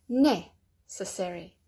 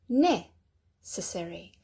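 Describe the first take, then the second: Both takes have the same delivery.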